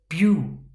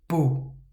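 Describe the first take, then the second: First: The vowel glides like 'yoo' after the b. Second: The vowel is a plain 'oo' sound. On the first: The speaker calls it wrong. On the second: The speaker calls it right.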